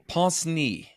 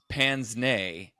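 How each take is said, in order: First: It is said with a French pronunciation. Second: It is said with an English pronunciation. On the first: "is the pronunciation in French apparently" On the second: "in English we say"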